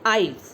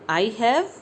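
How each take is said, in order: First: The words merge into one short syllable. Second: Both words are said separately and fully.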